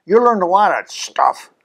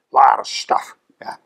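First: Said in the usual way. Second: Whispered aside "a lot of stuff". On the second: Shown as a demonstration. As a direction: breathe the repeat as a secret. Repeats phrase, second whispered.

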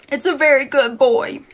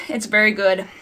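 First: Higher, louder, cooing a good dog; doggy praise voice. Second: Said in the usual way. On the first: Pretend. Reviewer jokingly praises the book like a pet, in a cooing dog-praise voice. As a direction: praise it like patting a dog on the head.

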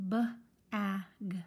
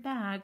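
First: B-a-g stretched slowly, each sound apart; teacher sounding out b-a-g for young readers; sounded out letter by letter. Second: Said in the usual way. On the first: Shown as a demonstration. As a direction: sound out b-a-g slowly, one sound at a time. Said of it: "when we read just the word bag, we read". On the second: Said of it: "when we read just the word".

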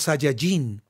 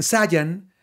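First: "Saiyajin" with an added final "jin"; Mexican dub pronunciation. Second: "Saiyan" said the Castilian dub's way; Spanish dub pronunciation. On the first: Voice actor showing how Mexico says it, demonstrated pronunciation. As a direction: say "Saiyajin" in full, ending on "jin". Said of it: "acá decimos Saiyajin". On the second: Voice actor contrasting Spain's dubbing with Mexico's, demonstrated pronunciation. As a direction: say "Saiyan" short, as Spain dubs it. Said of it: "ellos dicen Saiyan". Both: Shown as a demonstration.

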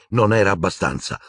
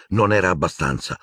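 No difference in how they are said.

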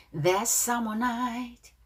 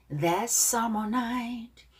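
Both takes have the same delivery.

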